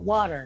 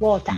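First: It is said in an American accent. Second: It is said in an Australian accent.

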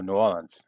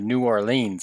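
First: The name is said the local Southern way. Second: The name is said the northern, outsider way. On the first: A local is saying it. The speaker calls it right. "I don't know that city. I know New Orleans" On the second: An outsider from the north is saying it. The speaker calls it wrong. "people from the north. Yeah. They go to New Orleans"

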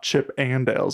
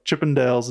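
First: The name is said as separate words. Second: The name is run together as one word. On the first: It names the cartoon chipmunks. The speaker calls it wrong. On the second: It names the dance troupe, not the cartoon. The speaker calls it right. "It's the one word"

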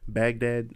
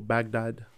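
First: It is said in the everyday English way. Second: It is said in the authentic local way. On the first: The speaker calls it wrong. "I've been saying it wrong my entire life" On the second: The speaker calls it right. "They say it the authentic way"

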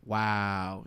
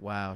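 First: The word is drawn out at the start. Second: The word is said short and plain.

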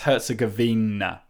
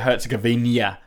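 First: The word ends without an added y sound. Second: The word ends with an added y sound. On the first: The speaker calls it right. "but it's Herzegovina" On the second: The speaker calls it wrong. "I always say it with a y at the end"

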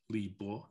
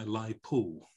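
First: The second syllable is said as 'bo'. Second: The name is said as 'lai po'. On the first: This is the older, polite way to say the name. "it used to have what they called a reading pronunciation. The polite way to refer to him was Bo" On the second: This is a mangled version of the name. "I once heard a Radio 3 announcer telling us"

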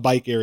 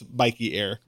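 First: The first word has one syllable, like bike. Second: The first word has two syllables, like bikey. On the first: The speaker calls it wrong. "it's not Bike Air" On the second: The speaker calls it right. "If you're a real fan, it's Bikey Air"

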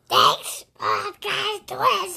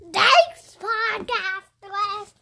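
First: It is said in an Electro voice. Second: It is said in a Spider-Man voice.

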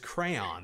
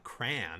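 First: The word is said with two syllables. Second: The word is squeezed into one syllable. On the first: The speaker calls it right. "It's crayon" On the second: The speaker calls it wrong. "It's not crayon"

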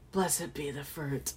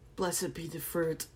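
First: It is said in a suggestive, dirty tone. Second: It is said in a plain, neutral tone. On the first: The speaker calls it wrong. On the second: The speaker calls it right.

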